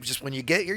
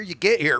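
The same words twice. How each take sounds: First: Said in the usual way. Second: "get here" pushed out louder; exasperated stress. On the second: Retold or imitated. Telling Pelly to just show up, louder exasperated stress. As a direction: lean hard on "you get here" in mock exasperation.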